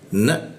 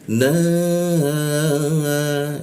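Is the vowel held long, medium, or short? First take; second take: short; long. First: The vowel is cut short after one beat. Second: The vowel is held for three beats. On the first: "maka dibaca satu harokat aja. Na mentok" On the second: "itu maka dibacanya tiga ketukan"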